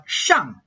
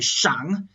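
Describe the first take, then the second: First: Shang said with a sharp falling fourth tone. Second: Shang said in a low dipping third tone. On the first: Teacher contrasting the everyday word, sharp falling fourth tone. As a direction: drop hard on shang. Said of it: "in a fourth tone like shang". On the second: Teacher demonstrating the tone category name, dipping third tone. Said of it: "in a third tone". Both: Shown as a demonstration.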